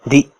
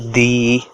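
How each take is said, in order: First: The syllable ends with a sharp jerk. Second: The vowel is stretched out long. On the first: "if I put an extra jerk like di" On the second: "you don't have to stretch a word"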